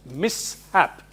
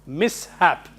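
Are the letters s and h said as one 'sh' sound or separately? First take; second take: separate; separate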